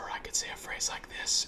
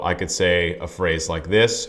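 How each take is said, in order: First: It is spoken in a whisper without tone. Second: It is spoken in a normal voiced tone.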